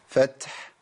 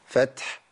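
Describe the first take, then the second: First: The word ends on a silent final consonant. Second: The same.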